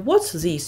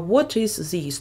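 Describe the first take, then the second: First: What is is contracted to one syllable. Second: What and is are said as separate words. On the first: "не what's this, як ми читали" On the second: "а what is this, тобто повними формами"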